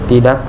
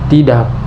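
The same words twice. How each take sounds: First: The vowel has normal short length. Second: The vowel is stretched out long. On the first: It is just a general refusal. "biasanya hanya menolak secara umum" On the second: The refusal is emotional. "untuk mengekspresikan penolakan yang emosional"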